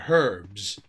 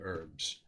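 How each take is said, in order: First: It is said the British way, with an h. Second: It is said the American way, without an h.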